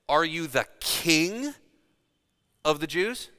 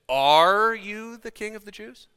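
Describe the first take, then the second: First: The stress is on the word king. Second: The stress is on the word are. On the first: It doubts the claim to be a king. "Calling into question whether he actually called himself a king" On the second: It asks for a plain yes or no. "Looking for an affirmation or a denial"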